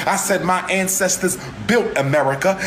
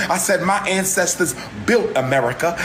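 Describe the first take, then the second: No difference in how they are said.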